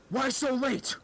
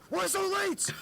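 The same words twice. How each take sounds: First: High-pitched mock demand; acted stern question, pitched up; fed-up teacher. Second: Very high mock yelp; hammed-up, extremely high-pitched demand; fed-up teacher insisting. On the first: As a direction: imitate a fed-up teacher confronting a latecomer. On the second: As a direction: imitate a teacher demanding an answer, pitch shot right up. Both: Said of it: "like, pretty fed up".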